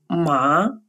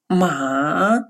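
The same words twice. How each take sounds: First: The pitch rises upward. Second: The pitch dips down, then rises. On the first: It means hemp. "со вторым тоном" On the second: It means horse. "с третьим тоном"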